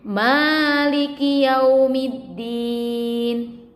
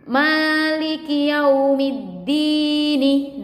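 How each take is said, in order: First: The phrase ends on a bare consonant sound. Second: The phrase ends with a short vowel sound. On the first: "menjadi maliki yaumiddin" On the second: "huruf nun-nya itu berharokat kasroh"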